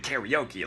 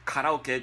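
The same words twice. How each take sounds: First: It is said with English pronunciation. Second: It is said with Japanese pronunciation.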